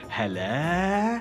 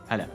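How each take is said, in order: First: It is said warmly with excited, drawn-out energy. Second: It is said in a relaxed, low-key casual way. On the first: The speaker is happy to see an old friend. "if you see someone that you haven't seen in a long time" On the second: It is just an everyday passing hello. "give someone a casual hi"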